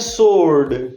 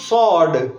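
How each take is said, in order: First: The word is said with an r sound. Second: The word is said with no r sound. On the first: "हम क्या कहते हैं? सोर्ड। American भी सोर्ड बोलते हैं" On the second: "ये word है सॉड"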